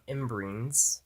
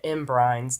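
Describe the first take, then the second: First: The second syllable has an 'ee' vowel. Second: The second syllable has an 'eye' vowel. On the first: This is how the film says it. The speaker calls it right. "now I have to call them imbreens" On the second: This is how the speaker used to say it. The speaker calls it wrong. "I've been calling it imbrines this entire time"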